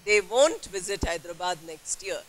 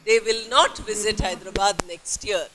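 First: The words 'will not' are said as 'won't'. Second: The words 'will not' are said in full. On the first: "Or they won't. Will not becomes W-O-N-T" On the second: "we can say they will not visit Hyderabad next year"

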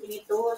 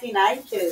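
First: The word is said the usual Philippine way. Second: The word is said the way other countries do. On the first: This is how people in the Philippines say it. "Sa Pilipinas yan" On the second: This is how people in other countries say it. "Sa ibang bansa"

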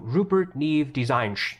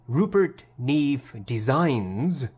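First: The final S sound is blunted into 'sh'. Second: The final S sound is crisp and hissy. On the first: The headphone dulls the sibilance of the voice. The speaker calls it wrong. "the Audeze turns it into Rupert Neve Designs. Adds an H at the end" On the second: This is the accurate, natural sound of the voice. The speaker calls it right. "instead of saying Rupert Neve Designs"

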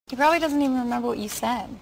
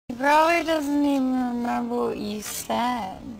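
First: It is said at normal speed. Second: It is said slowly.

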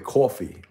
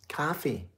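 First: It is said in a New York accent. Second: It is said in a Midwest accent.

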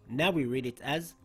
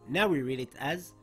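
No difference in how they are said.

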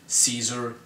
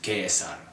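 First: The name is said the modern-language way. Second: The name is said the classical Latin way. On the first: The speaker calls it wrong. "pronounced wrongly in about every modern language" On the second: The speaker calls it right. "The correct way to pronounce his name in classical Latin"

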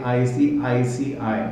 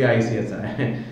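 First: Said slowly, with every letter clearly pronounced. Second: Said fast, with letters run together and dropped. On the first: The speaker calls it right. "I have to really slowly, put my speed very slow" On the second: The speaker calls it wrong. "if I just say it very fast the way I generally speak"

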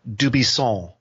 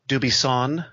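First: The final N is nasal, French style. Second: The final N is a hard, full consonant. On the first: "with that Gallic N that's up in your nose, that "aw" sound" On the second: "with a hard N"

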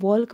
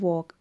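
First: The L sound is pronounced in the word. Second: The L sound is silent in the word. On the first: The speaker calls it wrong. "वॉल्क मत पढ़ते हैं" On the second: The speaker calls it right. "इसको क्या पढ़ते हैं वॉक, एल यहाँ पे silent रहता है"

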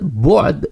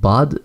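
First: The first vowel is a rounded 'u' sound. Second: The first vowel is an open 'a' sound. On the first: The speaker calls it right. "बल्कि बे के ऊपर पेश है।" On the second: The speaker calls it wrong. "इज़्ज़त बाद ज़िल्लत नहीं है, बे के ऊपर ज़बर नहीं है"

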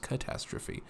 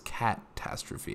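First: The 'cat' part is said plainly and subtly. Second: The 'cat' part is clearly emphasized. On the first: The cat pun is left understated. The speaker calls it right. "It's just catastrophe. Very easy, very subtle" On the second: The cat pun is made obvious. The speaker calls it wrong. "it doesn't sound quite as cringy if I don't actually pronounce it as catastrophe"

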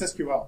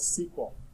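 First: It is said as three separate letters. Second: It is said as a single word. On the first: The speaker calls it right. "It's SQL" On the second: The speaker calls it wrong. "the stupid pronunciation that still lives on to this day"

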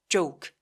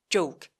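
The two takes are said the same way.

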